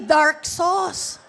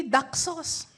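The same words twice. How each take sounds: First: "dark sauce" said slowly and clearly; clarified pronunciation. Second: Imitated British "Duck sauce" with no R; British accent. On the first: Shown as a demonstration. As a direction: stretch out "dark" to make the word clear. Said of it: "Yung pala ay dark sauce". (mabagal at malinaw na "dark sauce") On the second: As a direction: say "Duck" with a long British vowel, R dropped. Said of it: "British accent". (puntong Briton sa "Duck sauce")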